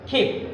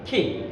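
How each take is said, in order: First: The first k sound has a strong puff of air. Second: The first k sound has a strong puff of air.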